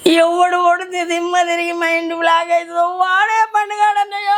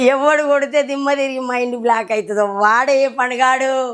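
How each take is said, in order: First: It is said while crying. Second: It is said while laughing.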